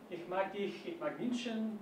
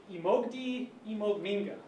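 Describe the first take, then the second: First: Ich mag dich, ich mag München in standard German. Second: I mag die, I mag Minga in Bavarian dialect. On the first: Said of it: "In German". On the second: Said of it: "In Bavarian, you say". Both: Shown as a demonstration.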